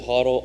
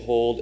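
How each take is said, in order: First: The word is said as two syllables, 'hoddle'. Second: The word is said as one syllable, 'hold'. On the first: This is how others say it. "Everyone on the C N B C and such says hodl" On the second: This is how the speaker says it. "I say hold"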